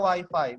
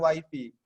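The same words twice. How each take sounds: First: The word is pronounced like 'why-fy'. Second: The word is pronounced like 'wee-fee'. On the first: This is how to say it to guests. The speaker calls it right. "tamu kita bilangnya wifi" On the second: This is not how to say it to guests. The speaker calls it wrong. "bukan wifi"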